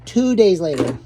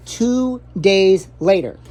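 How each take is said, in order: First: Said in the usual way. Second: Drawn out slowly, like a title card; mock movie-caption read; slow dramatic announcement. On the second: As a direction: spell it out slow for effect. Dramatic title-card style repeat.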